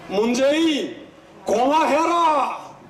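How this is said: It is said in Gyeongsang dialect.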